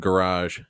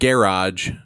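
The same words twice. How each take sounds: First: The word is said the American way. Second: The word is said the British way. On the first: The speaker calls it right. "instead of garage" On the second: The speaker calls it wrong. "And garage instead of"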